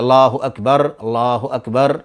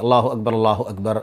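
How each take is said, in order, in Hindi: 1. हर वाक्यांश धीरे-धीरे बोला जाता है, उनके बीच विराम के साथ। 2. वाक्यांश तेज़ी से बोले जाते हैं और एक साथ जुड़ जाते हैं। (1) "अलग अलग ठहर ठहर करके" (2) "जल्दी होनी चाहिए, तसलसल होना चाहिए"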